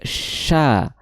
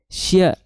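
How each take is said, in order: First: No y glide follows the sh sound. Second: A y glide follows the sh sound. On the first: The speaker calls it right. "tapi sha, sha seperti itu" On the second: The speaker calls it wrong. "bukan sya, s y a ... Kalau sya nanti terdengar ada huruf ianya di situ"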